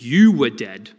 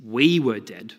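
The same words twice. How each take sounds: First: "you" punched louder, then falling; stress on you. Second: "we" stressed, then falling on "were dead". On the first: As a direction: hit "you" hard as the word being replaced. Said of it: "what that changes is no longer is it". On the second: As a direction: lean on "we" as the correction. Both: Shown as a demonstration.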